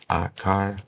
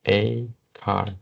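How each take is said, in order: First: The article is said with a short 'ah' vowel. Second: The article is said with a full 'ay' vowel. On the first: "I prefer to pronounce like ah because it's very easy" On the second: "for sure you can pronounce like a, a like this"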